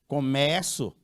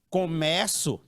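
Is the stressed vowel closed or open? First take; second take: open; open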